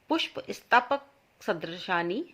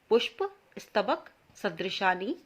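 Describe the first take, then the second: No difference in how they are said.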